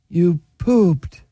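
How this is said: It is said in a sad tone.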